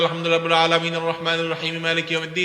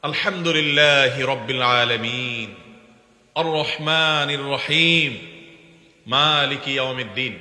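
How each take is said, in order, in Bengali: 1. আয়াতগুলো এক নিশ্বাসে দ্রুত একসাথে পড়া হয়। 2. প্রত্যেক আয়াতের পরে একটু থামতে হয়।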